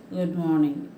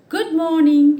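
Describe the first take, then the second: First: Low, reluctant Good morning; awkward forced greeting. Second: Bright, high, loud cheerful good morning; cheerful greeting. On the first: Shown as a demonstration. Teacher showing children a grudging unwilling greeting. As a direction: wish as if forced to. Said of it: "it sounds so awkward". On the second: A narrator's reading. Teacher reading the hedgehog greeting the ostrich cheerfully. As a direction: greet him with real joy. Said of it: "he said to the ostrich in a cheerful voice".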